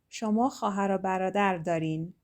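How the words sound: The voice falls at the end. It states that you have siblings. "as a statement"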